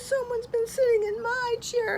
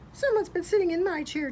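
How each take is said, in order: First: It is said in a little baby voice. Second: It is said in a middle-sized voice. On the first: "cried Baby Bear in his little baby voice" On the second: "said Mama Bear in her middle-sized voice"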